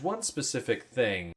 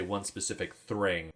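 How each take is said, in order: First: Said in the usual way. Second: "thring", an r slipped in after the th; punning mispronunciation. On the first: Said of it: "I guess I could say". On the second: Shown as a demonstration. Host punning on the actor's name, "thring" with an r. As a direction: say "thring" with an added r, as a pun. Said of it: "to make a play on the actor's name".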